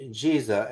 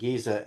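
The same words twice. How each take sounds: First: The name is said in a general Arabic pronunciation. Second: The name is said in a local Egyptian pronunciation. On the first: "as Arabs pronounce it" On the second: "as local Egyptian Arabs pronounce it"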